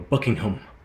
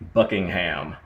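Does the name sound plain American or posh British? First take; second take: posh British; plain American. First: It is said in a posh British-sounding way. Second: It is said in a plain American way. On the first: "it sounds classier if you go Buckingham" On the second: "I guess if you want to say it that way"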